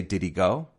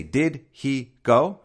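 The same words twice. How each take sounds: First: "Did he go?" run together quickly, "did he" blended with a reduced h; natural blended speech. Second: "Did he go?" said slowly, every word separate and stressed; slow, over-careful. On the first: English teacher to listeners, showing the natural blended way. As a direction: say "Did he go?" at natural speed, words linked. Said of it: "I say". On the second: English teacher to listeners, showing the wrong, over-careful way. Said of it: "Now, I don't say". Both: Shown as a demonstration.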